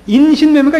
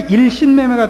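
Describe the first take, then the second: First: The first syllable ends in an n sound. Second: The first syllable ends in an l sound. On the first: The speaker calls it right. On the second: The speaker calls it wrong.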